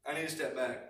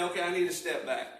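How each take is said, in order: First: Softer echo of I need to step back, said to oneself; softer repeat. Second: Said in the usual way. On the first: Shown as a demonstration. Preacher showing how to calm yourself, said softly to himself. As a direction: repeat it quietly, calming yourself down. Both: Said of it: "and say".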